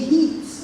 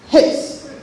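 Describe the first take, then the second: First: The vowel is said long. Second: The vowel is said short. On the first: The speaker calls it wrong. "we say heat" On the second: The speaker calls it right. "Hit is the short E"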